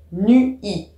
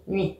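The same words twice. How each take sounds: First: "nu-i" split into two separate syllables, nu and i; diaeresis. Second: Said in the usual way. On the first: Shown as a demonstration. Teacher shows poetic reading, "nu-i" said in two syllables. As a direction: stretch "nu-i" apart, giving each vowel its own beat. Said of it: "on doit dire en poésie". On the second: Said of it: "dans le langage courant, on dit".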